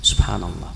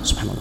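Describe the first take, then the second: First: It is said slowly and fully articulated. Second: It is said fast and slurred together. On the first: The phrase is recited with full attention. The speaker calls it right. "beliau bersabar ... sempurnakan kalimatnya" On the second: The phrase is rushed without attention. The speaker calls it wrong. "beliau contohkan yang salah itu yang kedengaran sesuatu yang tidak jelas"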